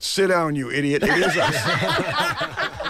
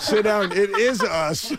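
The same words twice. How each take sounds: First: Raised, drawn-out mock heckle; retold heckle. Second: High, laughing mock shout; laughing heckle. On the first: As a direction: call out from the cinema seats, half-acted. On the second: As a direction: heckle again through laughter. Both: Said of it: "another voice cried out".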